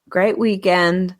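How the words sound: It is read with a Southern twang accent.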